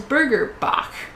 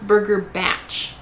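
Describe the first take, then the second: First: The second word ends with a 'k' sound. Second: The second word ends with a 'ch' sound. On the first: This is the speaker's own first reading of the name. "I would pronounce that as Burger Bach, right? Bach as in like the German composer" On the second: This is how the restaurant says its name. "it says that it's pronounced Burger Batch"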